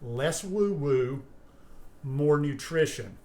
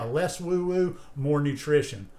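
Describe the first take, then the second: First: The phrase is spoken at a slow pace. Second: The phrase is spoken at a normal pace.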